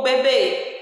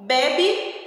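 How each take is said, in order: First: "bebê" com força no BÊ final; tônica no fim. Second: "bebe" com força no primeiro BE; tônica no começo. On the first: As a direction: diga "bebê" como be-BÊ, E fechado. ("bebê" oxítono, última sílaba marcada) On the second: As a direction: diga "bebe" como BÉ-bi, final fraco. ("bebe" paroxítono, com E aberto) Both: Shown as a demonstration. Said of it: "Observa bem o acento".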